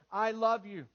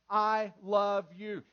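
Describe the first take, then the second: First: Said in the usual way. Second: "I love you." drawn out slowly, each word weighted; slow tender I love you. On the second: Shown as a demonstration. Pastor showing men how to say it, slow and tender. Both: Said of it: "Say it verbally".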